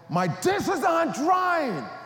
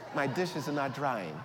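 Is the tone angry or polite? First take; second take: angry; polite. First: It is said in an angry tone. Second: It is said in a polite tone.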